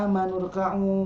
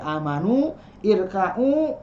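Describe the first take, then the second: First: The two words run together, dropping the i. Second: The two words are said separately, with the i. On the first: "ketika dibacanya sekaligus hilang semua hamzah wasolnya" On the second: "ini asalnya dari amanu irka'u"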